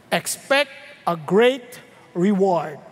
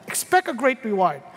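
First: "expect a great reward" drawn out slow and low; slow emphasis. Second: Said in the usual way. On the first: Shown as a demonstration. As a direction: lean into "great reward", slowly and deep.

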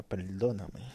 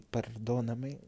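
First: "perdóname" con L, "peldóname"; L en vez de R. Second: Said in the usual way. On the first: Shown as a demonstration. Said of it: "decía perdóname". ("perdóname" con ele en lugar de erre) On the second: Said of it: "En vez de decir perdóname".

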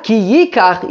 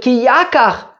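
First: Yikach opening on an i; yi- reading. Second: Yakach opening on an a, pitched higher; ya- reading. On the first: Teacher rejects a reading for Kiddushin, Yikach as YEE-kach. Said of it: "not Ki Yikach". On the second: Teacher proposes Kiddushin drasha, Yakach as YAH-kach, raised pitch. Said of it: "but Ki Yakach". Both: Shown as a demonstration.

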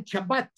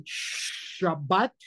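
First: SHABBAT with a hard ch, "Chabat"; wrong ch Shabbat. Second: SHABBAT with a very long shushing sh; correct sh Shabbat. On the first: Teacher mimicking those who can't say shin, ch sound. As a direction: start "Shabbat" with ch as in church. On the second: Teacher demonstrating the Hebrew shin, drawn-out sh. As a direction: stretch the "Shhh" opening "Shabbat". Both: Shown as a demonstration. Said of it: "Eso no existe en hebreo".

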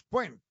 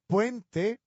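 First: "puent" sin la e final, cortado; wrong puent. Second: "puente" lento, con la e final clara; correct puente. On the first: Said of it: "no decimos puent". ("puent" mutilado, sin e) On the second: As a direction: alarga "puente" marcando la e final. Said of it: "y no decimos puent". ("puente" pausado con la e final) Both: Shown as a demonstration.

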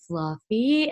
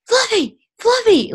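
First: Imitated creepy deadpan, questioning lift. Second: High, loud cry of a name; imitated yelling. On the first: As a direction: say it like an eerie sleepwalker, no shouting. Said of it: "in the creepiest way". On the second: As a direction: call out like the panicked sleepwalking cousin. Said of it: "is yelling Fluffy".

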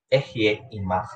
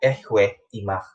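First: Careful Hebrew reading of "Ehye imach", y sound in Ehye; Hebrew pronunciation. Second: "Ehwe imach" slowly, with a w sound in Ehwe; slow deliberate reading of "Ehwe imach"; older Hebrew pronunciation. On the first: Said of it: "ibalik natin siya dun sa Hebrew na word". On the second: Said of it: "gamitin pa natin yung mas lumang version". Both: Shown as a demonstration.

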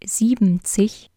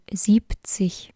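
First: Siebzig said as "sieben-zig" with full sieben; wrong pronunciation. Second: Siebzig said short as "sieb-zig"; correct pronunciation. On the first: Teacher showing learner the mistake, siebzig as "siebenzig". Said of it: "Es heißt nicht siebzig". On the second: Teacher showing learner the correct short siebzig. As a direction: say siebzig short with a p sound, the right way. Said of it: "sondern siebzig". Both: Shown as a demonstration.

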